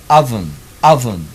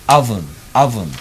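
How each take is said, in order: Both takes have the same delivery.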